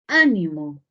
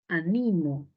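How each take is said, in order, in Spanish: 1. La tónica está en la primera sílaba. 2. La tónica está en la segunda sílaba.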